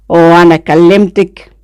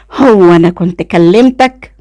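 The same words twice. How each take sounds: First: Irritated retort thrown back; same irritated tone. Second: Slow, irritated retort. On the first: Cousin mimicking her retort, irritated. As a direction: echo the question with annoyance. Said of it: "قال بنفس النبرة". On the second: Woman to passing cousin, irritated. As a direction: draw out the question with annoyance. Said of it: "وقلت له بغيظ". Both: A narrator's reading.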